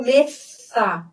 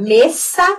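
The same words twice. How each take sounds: First: "mesa" slow, th for s; tongue between the teeth on "mesa"; ceceo alternative. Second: "mesa" with a plain s, rising; seseo. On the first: Teacher giving the other option, slow th sound. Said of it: "ou mesa". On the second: Teacher contrasting two pronunciations, plain s first. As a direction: hiss the s of "mesa". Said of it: "eu vou pronunciar mesa". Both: Shown as a demonstration.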